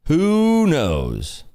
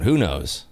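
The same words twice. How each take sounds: First: "Who knows?" lifted higher and stretched out on "Who"; drawn-out playful. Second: Said in the usual way. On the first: Shown as a demonstration. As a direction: toss "Who knows?" up high and draw out the "Who".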